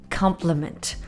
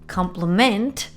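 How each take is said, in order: First: The word is said in its noun pronunciation. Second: The word is said in its verb pronunciation. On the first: It names a kind remark. "as a noun, it is compliment" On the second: It names the act of praising someone. "If it's a verb"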